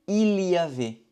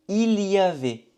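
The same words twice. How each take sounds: No difference in how they are said.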